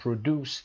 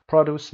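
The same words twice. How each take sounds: First: "produce" stressed on DUCE; second-syllable stress. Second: "produce" stressed on PRO; first-syllable stress. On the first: Teacher giving students the verb, "produce" stressed on DUCE. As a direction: verb form, pro-DUCE. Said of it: "تولید کردنه". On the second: Teacher giving students the noun, "produce" stressed on PRO. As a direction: noun form, PRO-duce. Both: Shown as a demonstration.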